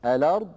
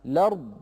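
First: الأرض begun with hamzat al-wasl, then the lam voweled; careful demo of الأرض starting on the hamza. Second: الأرض begun directly on a fatha lam, no hamza before it; careful demo of الأرض starting on the lam; start with voweled lam. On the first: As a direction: say الأرض opening with the connecting hamza. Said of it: "البدء بهمزة الوصل". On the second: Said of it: "البدء باللام المفتوحة". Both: Shown as a demonstration.

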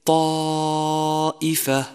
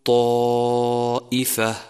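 First: طائفة chanted slowly with a full heavy unrounded ط; slow melodic طائفة; correct ta. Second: طائفة with the ط rounded toward و; slower طائفة with rounded lips on ط; wrong rounded ta. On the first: Tajwid teacher chanting the correct ط. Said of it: "وكذلك". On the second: Teacher showing the rounding mistake. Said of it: "وخطأ أن تقول". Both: Shown as a demonstration.

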